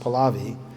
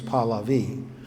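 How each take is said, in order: First: The name is said with an anglicized Western pronunciation. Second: The name is said with its native Persian pronunciation. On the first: This is how outsiders say the name. The speaker calls it wrong. "you may hear people in the West pronounce it Pahlavi" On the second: This is how the name's bearer said it. The speaker calls it right. "I heard it himself say, and his name was Pahlavi"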